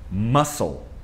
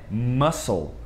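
The two takes are said the same way.

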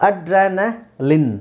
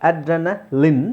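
Both takes have the same delivery.

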